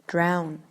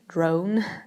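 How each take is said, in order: First: The vowel sounds like the vowel in 'now'. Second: The vowel sounds like the vowel in 'go'. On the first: The speaker calls it right. "but you should say drown" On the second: The speaker calls it wrong. "many people say drone"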